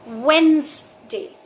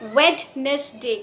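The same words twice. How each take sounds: First: No d sound is heard in the middle. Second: A d sound is heard in the middle. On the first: The speaker calls it right. "ड इस word में silent है" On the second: The speaker calls it wrong. "आप इस word में से डी की sound को हटा दीजिए"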